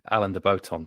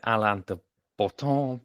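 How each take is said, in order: First: The surname is pronounced the English way. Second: The surname is pronounced the French way. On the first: "French first name and then English" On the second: "it's a French name, so I would say"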